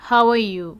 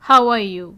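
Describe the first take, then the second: No difference in how they are said.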